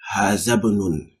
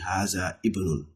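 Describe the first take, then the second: First: The i of ibnun is dropped and linked. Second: The i of ibnun is pronounced separately. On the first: The speaker calls it right. "you are jumping the alif there" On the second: The speaker calls it wrong. "Don't say Haza ibnun"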